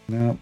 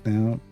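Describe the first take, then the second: Both takes have the same delivery.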